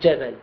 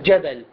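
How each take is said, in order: First: The first consonant is a soft, continuous 'zh'. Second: The first consonant is a hard, stopped 'j'. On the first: The speaker calls it wrong. "وليس جبل، جبل عادة يكون خطأ" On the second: The speaker calls it right. "هذا صوت الجيم بشكل جبل"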